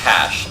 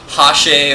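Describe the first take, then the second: First: The word ends on 'sh' with no vowel. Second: A vowel sound follows the final 'sh'. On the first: The speaker calls it right. "it's just hash" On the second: The speaker calls it wrong. "Sometimes I hear it pronounced hashe"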